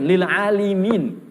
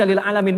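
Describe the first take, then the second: First: "lil alimin" drawn out slowly, long "aa" then "li-miin"; corrected reading. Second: "lil alamin" with a long a before "min"; plain misreading. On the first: Preacher corrects the misreading for listeners, slow careful "alimin" with an i. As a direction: stretch "alimin" slowly, with "li" before the final "min". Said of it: "bukan, lil alimin". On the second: Preacher shows listeners a common misreading, "alamin" with an a. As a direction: say "alamin", with "la" in place of "li". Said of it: "suka ada yang salah baca". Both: Shown as a demonstration.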